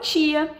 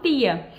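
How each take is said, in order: First: The t sounds like a ch sound. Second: The t is a plain, crisp t sound. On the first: This is how most people in the country say it. "a maior parte das pessoas no Brasil fala tia" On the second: This is how people from one particular town say it. "elas têm um sotaque que elas falam tia"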